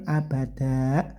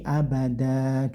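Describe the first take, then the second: First: The word ends with a glottal stop. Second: The word ends in a plain long vowel. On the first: The speaker calls it wrong. "kayak ada huruf hamzahnya tidak ya" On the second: The speaker calls it right. "cukup panjang tanpa n tanpa hamzah lagi"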